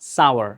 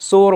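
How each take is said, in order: First: It sounds like two syllables, 'sow-er'. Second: It sounds like one syllable, 'sore'. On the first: The speaker calls it right. "এটার উচ্চারণ হবে সাওয়ার" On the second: The speaker calls it wrong. "এটার উচ্চারণ কিন্তু সোর বা সর না"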